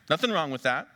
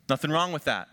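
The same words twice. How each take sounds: First: Nothing lifted with a rising tune; stress on nothing. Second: Wrong pressed down with a falling tune; stress on wrong. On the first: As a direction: open on Nothing and lift it. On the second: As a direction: lean on wrong and let it fall. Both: Shown as a demonstration.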